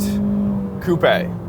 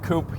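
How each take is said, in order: First: The word is pronounced the European way. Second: The word is pronounced the local way. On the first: "as you would call it in Europe" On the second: "or a coupe here"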